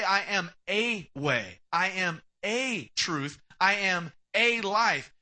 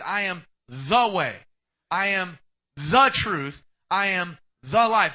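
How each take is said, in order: First: "a" drawn out slowly in "I am a way, I am a truth, I am a life"; stress on A. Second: "the" punched louder and slow in "I am the way, I am the truth, I am the life"; stress on THE. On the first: Preacher showing the wrong wording, stressing "a" slowly. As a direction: lean on "a", slow and deliberate. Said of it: "he didn't say". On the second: Preacher giving Jesus' real words, loud stress on "the". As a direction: hammer "the" each time, building in volume. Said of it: "He said". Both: Shown as a demonstration.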